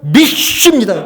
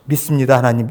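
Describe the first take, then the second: First: Louder "믿습니다" with a laugh; loud showy declaration. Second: Lower, simple "믿습니다, 하나님"; low sincere confession. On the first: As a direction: proclaim "믿습니다" loudly like a show of faith. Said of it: "이렇게 하지". (크게 과시하듯 "믿습니다") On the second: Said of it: "좋은 말을 놔두고 왜". (낮고 담담하게 "믿습니다, 하나님") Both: Shown as a demonstration.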